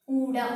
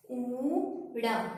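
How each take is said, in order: First: Said in the usual way. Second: ਊੜਾ with a very long, held "oo" before the final syllable; drawn-out letter name. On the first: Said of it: "ਇਸ ਦਾ ਉਚਾਰਨ ਕਰਦੇ ਹਾਂ". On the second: Shown as a demonstration. Teacher showing students how the first Punjabi letter is pronounced, ਊੜਾ drawn right out. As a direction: stretch the first vowel of ਊੜਾ like English U, very slowly. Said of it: "ਊ ਦੀ ਤਰ੍ਹਾਂ".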